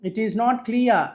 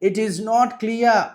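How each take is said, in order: No difference in how they are said.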